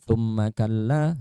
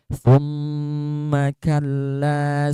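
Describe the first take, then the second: First: The double m is short without pressure. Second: The double m is pressed and held long. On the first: The speaker calls it wrong. "Jangan sampai kalian tuh membacanya thumma kalla itu ya. Tapi ada tekanan ya" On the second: The speaker calls it right. "Itu ditekan gitu ya"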